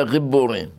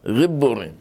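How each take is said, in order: First: Said in the usual way. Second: גיבורים with a soft, throaty gh for the ג; soft gimel. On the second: Shown as a demonstration. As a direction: say גיבורים with the ג breathed like a rolled-back gh. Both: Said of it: "ג' רפויה".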